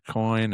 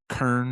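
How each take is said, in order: First: The vowel sounds like 'oy', in a standard accent. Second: The vowel sounds like 'er', in a local accent. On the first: "instead of coin" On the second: "the Al Smith inflection, where you say words like kern"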